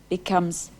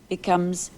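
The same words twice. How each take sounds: No difference in how they are said.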